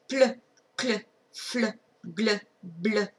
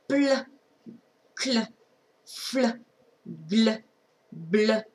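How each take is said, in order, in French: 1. Plus vite. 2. Lentement, tranquillement. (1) "Un petit peu plus vite" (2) "tranquillement encore"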